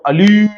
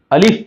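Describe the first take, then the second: First: الیف said with a long ee vowel, the common mistake; wrong pronunciation. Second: الف said short and clean, no ee vowel; correct pronunciation. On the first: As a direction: say الیف with a stretched e sound. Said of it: "وہ الیف نہیں ہے". (الیف کو لمبی "ای" کے ساتھ غلط پڑھنا) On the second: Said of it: "اس کو ہم پڑھیں گے صرف". (الف کو صاف اور مختصر پڑھنا) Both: Shown as a demonstration.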